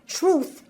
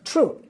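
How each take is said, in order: First: The word ends with a th sound. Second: The word ends with a t sound.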